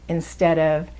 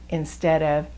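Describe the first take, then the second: No difference in how they are said.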